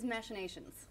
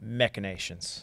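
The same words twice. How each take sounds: First: "machinations" as MASH-uh-NAY-shunz; "machinations" with CH as in machine; SH pronunciation. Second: "Machinations" as MEK-uh-NAY-shunz; "Machinations" with CH sounded as K; hard K pronunciation. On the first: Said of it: "I've always pronounced it as machinations". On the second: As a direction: answer "Machinations" with a hard K, low and soft. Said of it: "Is it machinations or machinations?". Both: Shown as a demonstration.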